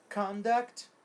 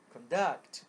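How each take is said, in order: First: Conduct com força na primeira sílaba, CONduct; noun stress. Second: Conduct com força na segunda sílaba, conDUCT; verb stress. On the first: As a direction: bata forte no início de Conduct. (Conduct, substantivo, tônica na primeira) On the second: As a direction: acentue o final de conduct. (conduct, verbo, tônica na última) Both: Shown as a demonstration. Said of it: "A mudança da sílaba tônica".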